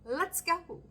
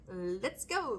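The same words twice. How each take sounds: First: Higher, hyped-up call of "Let's go"; excited cheer. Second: Said in the usual way. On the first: Pretend. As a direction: cheer the wheel on. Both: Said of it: "the wheel going".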